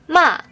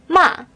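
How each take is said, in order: Both takes have the same delivery.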